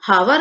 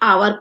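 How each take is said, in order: First: The word begins with an audible h sound. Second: The word begins directly with a vowel sound. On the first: The speaker calls it wrong. "हम इसको come after एन हावर नहीं पढ़ेंगे" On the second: The speaker calls it right. "हम आवर पढ़ते हैं। यहाँ पे एच silent है"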